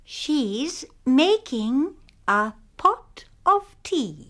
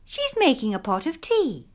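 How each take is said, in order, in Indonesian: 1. Kalimat ini diucapkan dengan lambat. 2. Kalimat ini diucapkan lebih cepat. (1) "Mula-mula dengan perlahan-lahan" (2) "kemudian dengan lebih cepat"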